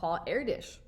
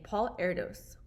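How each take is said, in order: First: The surname is said in a Hungarian-style way. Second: The surname is said in an anglicized way. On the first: The speaker calls it right. "it tells you how to pronounce it" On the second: The speaker calls it wrong. "I've been pronouncing it wrong"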